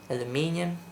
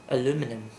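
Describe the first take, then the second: First: The word is said in a British way. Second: The word is said in an American way. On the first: The speaker calls it right. "I prefer this version to the American one" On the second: The speaker calls it wrong. "the American one"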